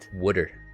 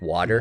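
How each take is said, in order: First: It is said in a Baltimore accent, like 'wooder'. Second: It is said in a standard accent, like 'water'. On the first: "when you start saying wooder" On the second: "Like water"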